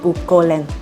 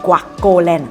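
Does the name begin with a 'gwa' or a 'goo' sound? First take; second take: goo; gwa. First: The first syllable starts with a plain 'goo' sound. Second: The first syllable starts with a 'gwa' sound. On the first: The speaker calls it wrong. "not Gucoland" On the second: The speaker calls it right. "it's pronounced as Guacoland"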